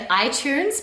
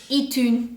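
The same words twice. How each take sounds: First: It is said with an English accent. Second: It is said with a French accent.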